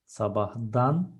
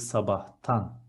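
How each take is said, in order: First: The suffix begins with a voiced d sound. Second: The suffix begins with a voiceless t sound. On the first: The speaker calls it wrong. "I want to say from morning" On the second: The speaker calls it right. "H is a voiceless consonant, so it's going to be"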